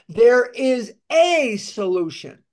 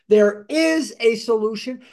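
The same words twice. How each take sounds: First: The word 'is' does not carry the stress. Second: The word 'is' carries the main stress.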